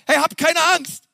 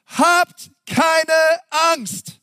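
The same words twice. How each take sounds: First: High, bright call with "keine" leaned on; Moses reassuring. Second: High, loud, drawn-out "habt keine Angst"; Moses reassuring. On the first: Preacher replaying Moses to the crowd, pitched high. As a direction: cry out "habt keine Angst" to the crowd. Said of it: "der Hammer, oder?". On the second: Preacher voicing Moses to the frightened people, raised and drawn out. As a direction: Moses calling out to calm the people. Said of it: "Doch Mose sagte zum Volk". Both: Acted.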